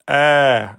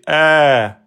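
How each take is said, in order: First: The vowel is held for two beats. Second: The vowel is held for two beats.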